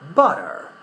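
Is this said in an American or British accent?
American. The middle T sounds soft, close to R. "in American English we would rather say"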